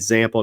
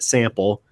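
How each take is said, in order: First: The word begins with a buzzing z sound. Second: The word begins with a hissing s sound. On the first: This is how the speaker habitually says it. "I say zample, with my remnants of my Baltimore accent" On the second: This is how others expect it to be said. "not sample"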